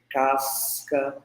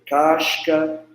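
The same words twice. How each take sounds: First: The s is a hissing sound. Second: The s is a hushing sh sound. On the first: "da variante alveolar" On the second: "variante palatalizada, que é o chiado"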